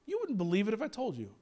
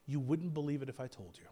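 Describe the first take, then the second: First: Said in the usual way. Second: Quiet God reply. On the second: Acted. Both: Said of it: "That's what God was saying".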